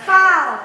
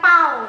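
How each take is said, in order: First: The word begins with an f sound. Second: The word begins with a p sound. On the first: The speaker calls it right. "Gigi seri atas nempel ke bibir bawah" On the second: The speaker calls it wrong. "fa-nya bukan pau"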